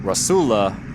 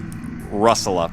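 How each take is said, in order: First: The stress is on the second syllable. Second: The stress is on the first syllable. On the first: "putting such emphasis on the second U" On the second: "that's the the easiest to pronounce"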